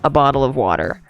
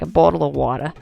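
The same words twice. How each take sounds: First: It is said in an American accent. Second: It is said in an Australian accent.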